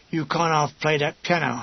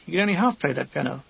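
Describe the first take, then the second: First: "can't" carries the emphasis, "half play" runs on; stress on can't. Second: Quick line with "half" picked out; stress on half. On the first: Gunners praising the pianist, stressing "can't". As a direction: lean on "can't" as admiring slang. Admiring idiom, set against literal meaning. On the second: Narrator agreeing drily with the gunners, stressing "half". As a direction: lean on the word "half" as the joke. Narrator turns idiom into literal joke. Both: A narrator's reading.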